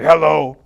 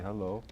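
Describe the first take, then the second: First: The greeting sounds cold and harsh. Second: The greeting sounds warm and friendly. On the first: The listener is made to feel uneasy. The speaker calls it wrong. "you don't say hello" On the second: The listener is made to feel comfortable. The speaker calls it right. "You say hello. You know, so they feel comfortable"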